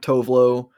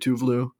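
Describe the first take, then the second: First: The name is said with an American pronunciation. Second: The name is said with a Swedish pronunciation. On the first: The speaker calls it wrong. "Tovlo is the American pronunciation" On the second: The speaker calls it right. "even though it's actually Tuvlu"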